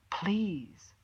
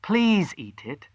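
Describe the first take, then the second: First: Whispered, pleading please; soft whispered begging. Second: Slow, higher pleading; begging. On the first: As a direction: breathe the word as a plea. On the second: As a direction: coax them gently to eat. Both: Acted. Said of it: "she begged".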